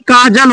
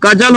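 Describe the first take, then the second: First: The first vowel is long. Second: The first vowel is short. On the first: The speaker calls it right. "कि काजल होता? तो क्या लगाना पड़ेगा?" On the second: The speaker calls it wrong. "तो कजल होता हिंदी में"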